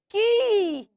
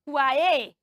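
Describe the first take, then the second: First: It starts with a k sound, like key. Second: It starts with a kw sound. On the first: The speaker calls it right. "the word Q U A Y is pronounced ki" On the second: The speaker calls it wrong. "Do you say Kuaye or kuaya or kue"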